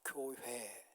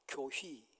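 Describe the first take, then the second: First: The second syllable is pronounced 'hoe'. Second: The second syllable is pronounced 'hwi'. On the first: The speaker calls it right. "저는 자연스럽게 됩니다" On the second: The speaker calls it wrong. "그 회자 발음이 안 됩니다. 교휘, 희라고 합니다"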